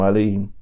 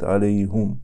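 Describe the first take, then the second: First: The vowel after the h is i. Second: The vowel after the h is u. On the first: "Мы читаем алейхим" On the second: "А в другом чтении"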